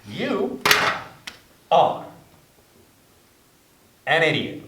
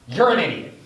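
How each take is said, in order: First: It is said slowly and deliberately. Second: It is said at a quick pace.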